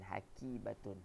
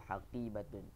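First: The middle consonant is a plain front k. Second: The middle consonant is a deep back q. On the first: The speaker calls it wrong. "bukan haqibatun. Bukan kaf" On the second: The speaker calls it right. "huruf qaf. Yang pertama tu haqibatun"

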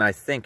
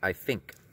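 First: The words are pronounced in the standard way. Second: The words are pronounced with a speech impediment. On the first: "it wasn't I think" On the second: "I had a speech impediment. ... it was I think"

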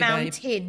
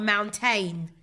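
First: The last syllable is weak and reduced. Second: The last syllable is full, rhyming with 'rain'. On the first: The speaker calls it right. "You climb a mountain" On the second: The speaker calls it wrong. "not a mountain"

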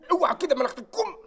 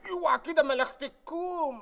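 First: The last word's vowel is held only half as long. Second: The last word's vowel is drawn out long.

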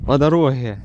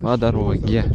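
First: It is said in a Ukrainian accent. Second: It is said in a plain Russian accent.

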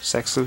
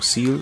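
First: The name is said with an X sound. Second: The name is said without any X sound. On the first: The speaker calls it wrong. "wie die meisten sagen" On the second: The speaker calls it right. "Eigentlich heißt es ja Seal"

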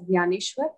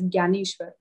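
First: The name is said in the speaker's own way. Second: The name is said the Hindi way. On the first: "We pronounce it, the name as Jnaneshwar" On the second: "In Hindi, you can pronounce it as Jnaneshwar"

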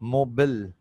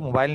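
First: The second syllable sounds like 'bil'. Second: The second syllable sounds like 'bail'. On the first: The speaker calls it right. "इसे actual में पढ़ा जाता है मोबिल" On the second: The speaker calls it wrong. "इसको मोबाइल नहीं पढ़ते"

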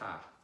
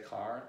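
First: It is said without the final R sound. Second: It is said with the final R sound.

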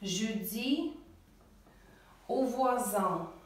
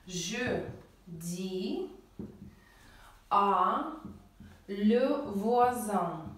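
First: One merged syllable is said before voisin. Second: Two separate words are said before voisin. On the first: The speaker calls it right. "поэтому «алло» мы убираем и ставим «о»" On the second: The speaker calls it wrong. "А, le, только что мы с вами говорили, не существует"

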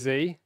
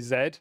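First: The letter is said as American 'zee'. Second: The letter is said as British 'zed'.

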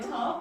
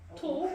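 First: It has an open vowel in an American accent. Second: It has a rounded vowel in a British accent. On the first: "탑 하면 미국식이야" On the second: "톱 그러면 약간 영국식이고"

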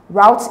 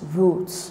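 First: It is said with an American pronunciation. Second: It is said with a British pronunciation. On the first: "Route is the American pronunciation" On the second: "The British pronunciation is root"

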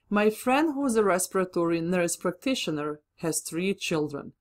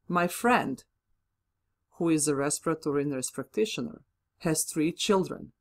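First: It runs on without a pause or pitch drop. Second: It pauses, then the middle phrase drops in pitch. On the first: It picks out one friend among all the speaker's friends. "This is clearly a restrictive relative subject clause" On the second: It adds extra information about the friend. "I slightly paused to introduce the comma, and then I lowered my pitch slightly"

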